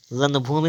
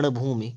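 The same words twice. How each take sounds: First: रणभूमि with a dental n; wrong pronunciation. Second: रणभूमि with retroflex ṇ; tongue curled back mid-word in रणभूमि; correct pronunciation. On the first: Teacher showing the error, रणभूमि with dental n. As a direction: say रणभूमि with plain n. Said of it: "रणभूमि नहीं होता है". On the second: Teacher correcting, रणभूमि with retroflex ṇ. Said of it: "रणभूमि होता है". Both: Shown as a demonstration.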